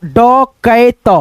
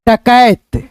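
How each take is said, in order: First: डकैत slowly split as ड, कै, त; teacher's slow breakdown of डकैत; syllable-by-syllable reading. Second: Said in the usual way. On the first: Shown as a demonstration. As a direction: sound out डकैत piece by piece, drawn out. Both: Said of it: "क्या पढ़ेंगे".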